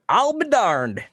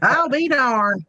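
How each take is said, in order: First: High, loud drawn-out hillbilly "I'll be darned"; Southern exclamation. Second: Slow, higher drawled "I'll be darned"; Southern exclamation. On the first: Imitating West Virginia talk, a loud high country drawl. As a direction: belt it like a West Virginia old-timer. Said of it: "the whole". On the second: Echoing a co-host's saying, slow Southern drawl. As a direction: draw out "I'll be darned" slowly. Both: Retold or imitated.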